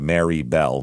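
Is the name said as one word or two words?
two words. The name is said as two separate words. The speaker calls it right. "Two separate words"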